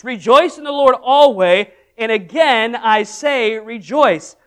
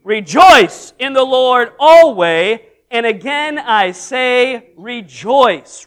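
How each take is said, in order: First: Said in the usual way. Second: Slow, louder unison reading; loud slow group reading of the verse; read out loud and strong. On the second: Shown as a demonstration. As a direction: proclaim it strong with the congregation. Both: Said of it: "out loud and good and strong".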